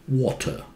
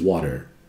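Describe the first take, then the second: First: It is said with a British accent. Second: It is said with an American accent. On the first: "British say water" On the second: "Americans say water"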